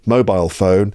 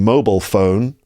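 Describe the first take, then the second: First: It is said with a British pronunciation. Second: It is said with an American pronunciation. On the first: "whereas in the U K" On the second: "in America, you hear people saying"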